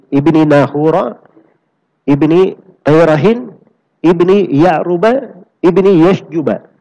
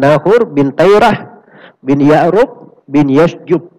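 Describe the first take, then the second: First: The names carry vowel endings, joined by ibni. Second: The names end without vowel endings, using bin.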